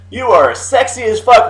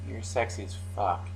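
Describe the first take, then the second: First: It is said in an awkward, poorly pitched tone. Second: It is said in a firm, confident tone.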